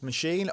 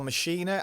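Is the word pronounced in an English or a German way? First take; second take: English; German. First: It is pronounced the ordinary English way. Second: It is pronounced the German way.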